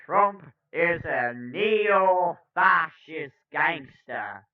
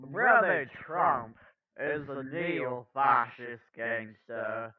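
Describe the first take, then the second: First: First stab at a slow, loud orator; a rough impression, key words stretched and punched; Cornel West. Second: Joyful, measured preacherly lilt; easygoing orator impression, words drawn out; Cornel West. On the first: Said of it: "I can do a better Cornel voice". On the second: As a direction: savor it slowly with a little joyful spin. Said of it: "put a little joyful spin on it".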